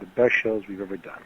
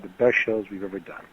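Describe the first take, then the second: First: It is said in a natural speaking voice. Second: It is said in a natural speaking voice.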